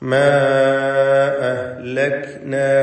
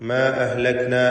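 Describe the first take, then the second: First: The first vowel is stretched out long. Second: The first vowel has only normal length. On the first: "അലിഫിനെ നാലോ അഞ്ചോ ഹറക്കത്തിന്റെ അളവിൽ ദീർഘിപ്പിക്കൽ അനുവദനീയമാണ്" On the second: "ദീർഘം ഒഴിവാക്കി ... തബീഇയായ ദീർഘം മാത്രം നൽകി"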